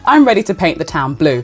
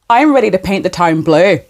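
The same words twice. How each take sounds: First: It is said in a neutral accent. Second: It is said in a Northern Irish accent. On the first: "in translation" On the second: "That's my Irish accent"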